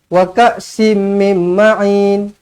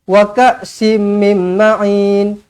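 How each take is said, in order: The two takes are said the same way.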